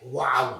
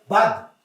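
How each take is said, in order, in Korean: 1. w 같은 소리로 나요, 'waw'처럼요. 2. v 같은 소리로 나요, 'vav'처럼요. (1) "독일식 그 히브리어를 발음하는 사람들은 와우라고 돼요" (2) "미국에 사는 사람들은 바브라고 발음을 해요"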